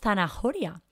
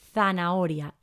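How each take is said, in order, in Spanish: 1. La h del medio se pronuncia. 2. La h del medio es muda. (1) "Nunca decimos zanahoria" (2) "tenemos zanahoria"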